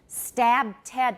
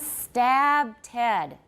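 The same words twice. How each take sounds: First: The vowel has a natural, unexaggerated length. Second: The vowel is stretched out in an exaggerated way. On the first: "that's not exaggerating" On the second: "Now I'm exaggerating, but not too much"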